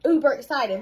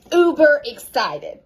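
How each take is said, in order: First: Said in the usual way. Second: "uber excited" drawn out slowly and louder, "uber" hit hard; stress on uber. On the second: Shown as a demonstration. Coach to her team, punching "uber excited" slow and loud. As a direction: lean into "uber" and stretch it.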